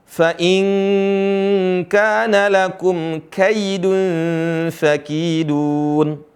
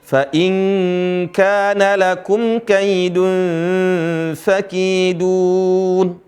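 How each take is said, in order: Both takes have the same delivery.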